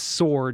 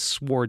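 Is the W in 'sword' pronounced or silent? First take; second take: silent; pronounced. First: The W sound is silent. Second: The W sound is pronounced.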